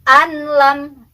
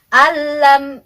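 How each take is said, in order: First: The n is pronounced clearly before the l. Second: The n merges into the l without nasal hum. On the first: The speaker calls it wrong. "itu izhar, salah" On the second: The speaker calls it right. "kita masukkan tapi jangan berdengung"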